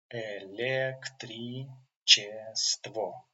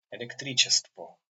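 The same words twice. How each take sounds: First: Электричество drawn out syllable by syllable; slow syllable by syllable. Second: Said in the usual way. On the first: Shown as a demonstration. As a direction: spell Электричество out slowly. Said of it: "slow model". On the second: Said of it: "normal take".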